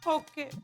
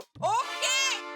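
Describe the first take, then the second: First: It is said softly. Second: It is said loudly.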